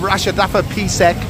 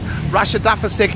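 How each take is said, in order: First: The word ends with a full 'fapisek'. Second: The word ends with a shortened 'fasik'. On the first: The speaker calls it right. "instead of" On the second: The speaker calls it wrong. "Mispronouncing Thai"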